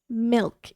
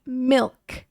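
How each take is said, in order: First: The vowel is the short i sound. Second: The vowel is the short i sound.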